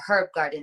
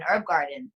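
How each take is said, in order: First: The h at the start of herb is pronounced. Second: The h at the start of herb is silent.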